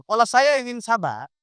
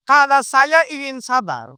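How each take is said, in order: First: Said in the usual way. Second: Slowed and weighted, each word set apart; drawn-out teaching emphasis; slow emphatic. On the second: Shown as a demonstration. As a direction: lean on "Kalau saya ingin sabar" slowly and firmly. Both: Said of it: "fokus saya ke dia yang marah-marah".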